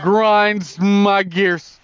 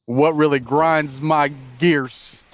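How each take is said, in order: First: Higher, louder and very slow; hammed-up catchphrase. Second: Slow, drawn-out catchphrase; catchphrase delivery. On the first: Host repeating his signature line to the laughing co-host, loud and slow. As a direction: stretch it out for the crowd. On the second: Host opening his recurring rant segment, slow and drawn out. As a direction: savor each word like a show intro. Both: Shown as a demonstration. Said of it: "God, I love it when he says that".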